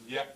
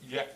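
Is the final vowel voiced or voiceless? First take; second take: voiced; voiced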